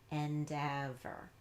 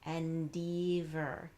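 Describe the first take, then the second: First: The second syllable has a short E vowel. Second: The second syllable has a long E vowel. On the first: The speaker calls it right. "change it to e, ev" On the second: The speaker calls it wrong. "we tried long E"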